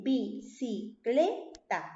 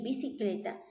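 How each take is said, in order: First: "bicicleta" slowly split as bi, ci, cle, ta; very slow "bicicleta", one beat per syllable. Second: Said in the usual way. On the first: Shown as a demonstration. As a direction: count out four separate syllables in "bicicleta". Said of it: "palabra de ¿cuántas sílabas?".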